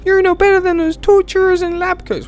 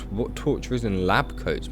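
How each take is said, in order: First: Very high falsetto reproach; high-pitched character falsetto; girl visitor. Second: Said in the usual way. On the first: Acted. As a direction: scold in a squeaky put-on girl voice. Voicing the female visitor.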